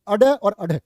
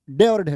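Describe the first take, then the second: First: अडे and अढे with the flapped sound and a short अ before it; right way. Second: डे and ढे said as plain stops, the wrong way. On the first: Teacher corrects students' pronunciation, loud and emphatic. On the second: Teacher shows the wrong डे and ढे to the class. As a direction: say डे and ढे the wrong way, as the students do. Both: Shown as a demonstration. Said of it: "डे और ढे नहीं".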